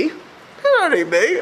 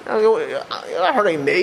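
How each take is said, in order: First: Slow, higher, leaning hard on "not"; stress on not. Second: Said in the usual way. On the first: Shown as a demonstration. Rabbi insisting to his congregation, stressing "not". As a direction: drag out "You're not hurting me" and hit "not".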